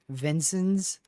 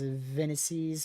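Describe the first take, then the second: First: The name sounds like Vincent's, with an n-t. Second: The name sounds like Venices, without an n-t. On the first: The speaker calls it right. "Vincent's, like that" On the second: The speaker calls it wrong. "I don't know how to say that at all"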